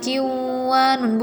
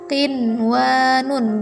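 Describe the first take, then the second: First: The nun sound is merged away. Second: The nun sound is pronounced clearly. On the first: The speaker calls it wrong. "bukan kiwanun, bukan" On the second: The speaker calls it right. "Qinwanun karena satu kata"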